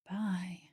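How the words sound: It is said in a soothing, hypnotic voice.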